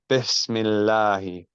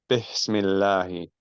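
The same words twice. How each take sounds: No difference in how they are said.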